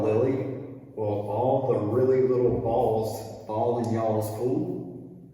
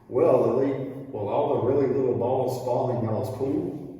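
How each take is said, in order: First: It is said at a slow pace. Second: It is said at a fast pace.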